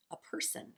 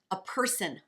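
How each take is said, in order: First: Soft unvoiced whisper. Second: Said in the usual way. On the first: Shown as a demonstration. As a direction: breathe it almost silently.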